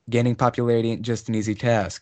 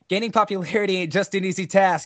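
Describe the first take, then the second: First: It is said in a plain, ordinary voice. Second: It is said in a put-on character voice.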